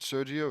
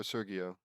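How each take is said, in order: First: Sergio with a soft "j" sound; the g in Sergio as in "gem". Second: Sergio with a hard g; the g in Sergio as in "get". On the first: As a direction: say Sergio as "SUR-jee-oh". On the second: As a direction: say Sergio as "SUR-ghee-oh". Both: Real, not acted. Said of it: "is it Sergio or Sergio".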